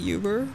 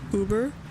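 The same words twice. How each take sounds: First: The word is said the family-habit way. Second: The word is said the standard way. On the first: This is the speaker's habitual form, learned from a parent. The speaker calls it wrong. "I always say Uber" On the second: This is how the name is usually pronounced. The speaker calls it right. "but it's Uber"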